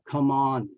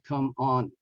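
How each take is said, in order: First: The M runs straight into the O. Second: The two words are said separately. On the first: The speaker calls it right. "connect the M to the O. So uh, uh, it becomes uh" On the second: The speaker calls it wrong.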